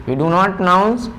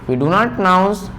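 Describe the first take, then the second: No difference in how they are said.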